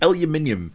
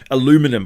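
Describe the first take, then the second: First: It is said the British way, five syllables. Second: It is said the American way, four syllables.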